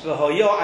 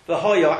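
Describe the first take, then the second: First: The stress is on the final syllable. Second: The stress is on the middle syllable. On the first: It refers to the future. "and it will be" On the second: It refers to the past. "and it had been"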